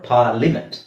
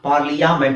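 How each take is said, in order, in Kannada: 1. ಪಾರ್ಲಿ ನಂತರ 'ya' ಶಬ್ದ ಕೇಳಿಸುವುದಿಲ್ಲ. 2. ಪಾರ್ಲಿ ನಂತರ 'ya' ಶಬ್ದ ಕೇಳಿಸುತ್ತದೆ.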